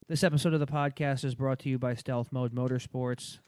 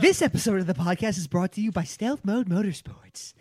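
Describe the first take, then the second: First: It is read in a flat monotone. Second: It is read with lively, interested energy.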